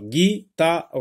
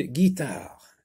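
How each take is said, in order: First: "guitare" broken into gui, ta, re; higher, separated syllables on "guitare"; split into syllables. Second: Said in the usual way. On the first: Shown as a demonstration. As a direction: sound out "guitare" in three beats, voicing the final re. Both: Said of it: "Dans quelle syllabe entends-tu le son G?".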